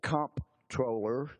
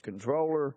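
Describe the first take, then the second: First: The first syllable is said with an 'mp' sound. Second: The first syllable is said with an 'n' sound. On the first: It follows the spelling. "Some pronounce it comptroller because that's how it's spelled" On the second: It follows the dictionary's first listing. "the number one pronunciation is controller"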